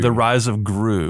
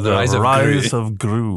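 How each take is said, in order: First: It is said in a plain, unmarked accent. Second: It is said in a Scottish accent.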